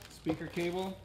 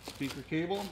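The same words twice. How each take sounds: The two takes are said the same way.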